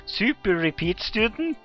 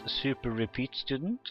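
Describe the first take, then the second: First: Loud, high, slow incredulous echo; louder, higher astonished question. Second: Mildly puzzled, rising at the end; puzzled question. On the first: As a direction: repeat it in drawn-out disbelief, voice rising sharply. Same question repeated, more incredulous. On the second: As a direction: read it as a questioning echo. Acted surprised question, first take. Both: Acted.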